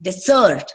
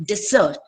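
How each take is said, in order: First: "desert" as di-ZERT; stress on second syllable. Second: "Desert" as DEZ-ert; stress on first syllable. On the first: Teacher showing the verb, "desert" stressed on ZERT. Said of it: "ಎರಡನೇ syllable ನ stress". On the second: Teacher showing the noun, "Desert" stressed on DEZ. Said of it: "nouns stress on the first syllable". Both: Shown as a demonstration.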